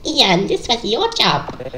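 It is said in a put-on character voice.

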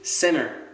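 It is said in an American accent. "en américain ça va devenir center"

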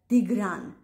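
The name begins with a D sound. This is the Western Armenian pronunciation. "а они говорят"

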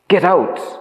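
It is said in an urgent, alarmed voice. There is an emergency. "The second one, as some emergency"

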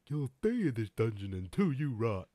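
It is said in a put-on dumb-guy voice.

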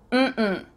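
The pitch goes from high to low. The answer is no. "If you say mm-mm, it means no"

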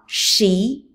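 It is pronounced with an English-like sound. The speaker calls it wrong. "It's not shi like English"

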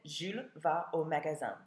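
The voice falls at the end, as a statement.

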